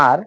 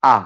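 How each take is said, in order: First: "আর" with the final r sounded; old pronunciation. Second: "আ" with the r left silent; new pronunciation. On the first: Teacher recalling the former habit, old "আর" with pronounced r. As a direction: say "আর" with a clear r at the end. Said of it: "এর উচ্চারণ আগে আমরা করতাম". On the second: Teacher giving today's correction, new r-less "আ". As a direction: open vowel "আ", drop the final r. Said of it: "এখন এর উচ্চারণ হবে". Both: Shown as a demonstration.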